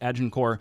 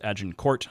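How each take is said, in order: First: The final T is silent. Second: The final T is sounded. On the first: This follows the French way of saying it. "I didn't always. ... so I used to always call it Agincourt" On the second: This follows the way historians say it. "all of the historians referred to it as Agincourt"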